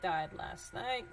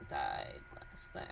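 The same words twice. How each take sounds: First: Said in the usual way. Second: Whispered to herself, slow and low. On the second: Real, not acted. Vlogger rereading an email, whispering the phrase to herself.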